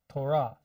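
It is said with Hebrew syllable stress. The speaker calls it right. "That's how you say it in Hebrew"

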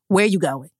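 It is said in a harsh, accusing tone.

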